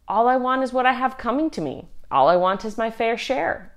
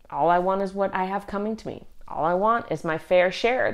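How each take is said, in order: First: Sally's shrug. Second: Said in the usual way. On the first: Retold or imitated. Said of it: "she says". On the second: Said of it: "what John and James are really saying".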